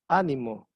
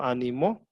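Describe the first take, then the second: First: ÁNIMO con fuerza en la Á inicial; acento esdrújulo. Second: Final-stressed "ánimo", said as animó; acento agudo. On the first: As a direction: stress "ánimo" on its first syllable, Á-ni-mo. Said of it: "es una palabra esdrújula". (acento en la primera sílaba de «ánimo») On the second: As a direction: stress "ánimo" on its last syllable, a-ni-MÓ. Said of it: "sería aguda". («ánimo» con acento en la última sílaba: animó) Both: Shown as a demonstration.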